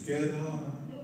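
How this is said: It sounds gentle and gracious.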